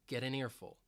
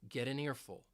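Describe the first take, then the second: Both takes have the same delivery.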